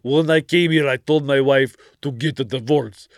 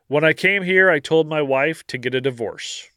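First: It is read in a put-on Austrian-like accent. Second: It is read in a plain, unaccented voice.

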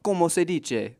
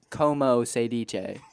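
First: It is said with lively, spirited energy. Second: It is said flatly with little energy. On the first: The speaker calls it right. "It should have been more like" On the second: The speaker calls it wrong. "you spoke it very flat, little to no enunciation, not a lot of spirit"

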